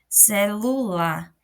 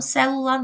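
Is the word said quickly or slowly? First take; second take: slowly; quickly. First: The word is said slowly on its own. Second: The word is said quickly within the sentence. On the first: "quando você pausa" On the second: "Quando a gente fala assim rápido"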